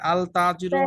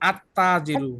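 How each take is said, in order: First: An L sound is heard before the T. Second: The L merges into a doubled T sound. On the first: The speaker calls it wrong. "আল তাজিরু হবে নাকি" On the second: The speaker calls it right. "লামটা কি উচ্চারণ হয়েছে নাকি হয়নি? হয় নাই।"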